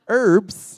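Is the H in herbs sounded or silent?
silent. It is said without an H, American style.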